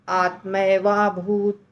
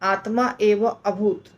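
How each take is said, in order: First: The three words are merged into one word. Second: The three words are said as separate words. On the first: "जो यहाँ लिखा है वैसे बोल सकते हैं" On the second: "इसको हम अलग अलग बोल सकते हैं"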